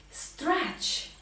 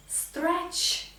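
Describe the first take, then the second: No difference in how they are said.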